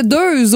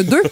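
First: "deux" with a voiced z on the end; grandmother's "deux", final z sounded; mispronounced deux. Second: Said in the usual way. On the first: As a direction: say deux like "deuze". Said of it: "ma grand-mère disait deux au lieu de deux". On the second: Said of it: "au lieu de deux".

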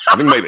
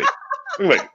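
First: Said in the usual way. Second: Jumps way up high and softer; squeaky high. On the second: Shown as a demonstration. Comedian repeats his guess in a high squeak for laughs. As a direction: squeak the line in a tiny high voice.

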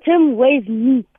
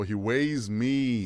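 First: Slow. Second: Slowly echoing the answer; drawn out in disbelief; slow, puzzled repeat. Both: Real, not acted. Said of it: "I thought you meant weigh".

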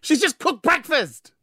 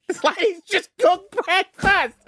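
First: Slow exasperated. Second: High, slow disbelief; exasperated. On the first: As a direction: stretch it out in disbelief. Exasperated repeat. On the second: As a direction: drag out the disbelief. Exasperated ranting. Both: Real, not acted.

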